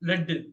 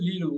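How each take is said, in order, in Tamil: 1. உயிர் ஒலி குறுகியது, 'led' மாதிரி. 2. உயிர் ஒலி நீளமானது, 'leed' மாதிரி. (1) "ஈயம் லெட்" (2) "நீங்க கைட் பண்றது லீடு"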